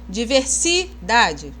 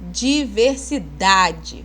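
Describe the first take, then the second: First: The stress falls on a syllable other than 'da'. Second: The stress falls on the syllable 'da'. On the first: The speaker calls it wrong. "Vocês falam diversidade?" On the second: The speaker calls it right. "Olha o dá aí com força"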